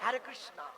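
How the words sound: It is said with a foreign, American-style accent. The speaker cannot say it properly. The speaker calls it wrong. "আমেরিকার থেকে যারা মায়াপুরে এসছে হরে কৃষ্ণ বলতে পারে না, উচ্চারণ বলে"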